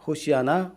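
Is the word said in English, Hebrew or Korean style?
Hebrew. It is said as four syllables, ho-si-a-na. This is the original form of the word. "히브리 말에서 호시아 나"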